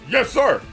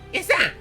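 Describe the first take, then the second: First: It is said in his normal voice. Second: It is said imitating the Tampas from Chibi-Robo.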